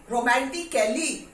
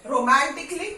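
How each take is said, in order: First: रोमांटिकली with the full a, romantikali; the mistaken full-a रोमांटिकली; wrong way. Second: रोमांटिकली said romantikli, a silent; the corrected short रोमांटिकली. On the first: Teacher showing students the wrong full-a रोमांटिकली. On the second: Teacher giving students the right silent-a रोमांटिकली. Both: Shown as a demonstration. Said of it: "नहीं".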